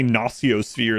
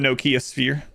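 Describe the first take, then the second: First: The first part does not sound like Nokia. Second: The first part sounds like the word Nokia. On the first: "is how it's supposed to be pronounced" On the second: "just like a Nokia phone"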